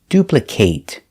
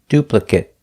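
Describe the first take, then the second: First: The last syllable has a long A, like 'ate'. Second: The last syllable has a short sound, like 'it'. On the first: The word is used as a verb. "If it's a verb, we pronounce it with a long A" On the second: The word is used as a noun or adjective. "If it's not a verb, we pronounce it with the short sound eh, eh, it, it"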